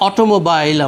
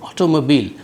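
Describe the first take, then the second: First: The last syllable sounds like 'bile'. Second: The last syllable sounds like 'beel'. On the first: The speaker calls it wrong. "অটোমোবাইল আমরা বলি খুব সহজেই" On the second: The speaker calls it right. "সঠিক উচ্চারণটা হচ্ছে অটোমোবিল"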